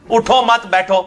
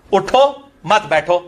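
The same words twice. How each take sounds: First: اٹھو مت بیٹھو with the break after مت; "اٹھو مت" together, then "بیٹھو"; pause shifts meaning. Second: Slow اٹھو مت بیٹھو with the break after اٹھو; "اٹھو" alone, then "مت بیٹھو", slowly; pause shifts meaning. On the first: (وقفہ "مت" کے بعد) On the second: (وقفہ "اٹھو" کے بعد، آہستہ) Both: Shown as a demonstration. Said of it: "اب دو مختلف بن".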